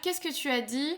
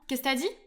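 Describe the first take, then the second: First: Every syllable is pronounced in full. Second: Sounds are dropped and the words run together.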